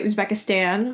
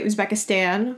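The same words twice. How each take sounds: First: The name is said in an American-style way. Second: The same.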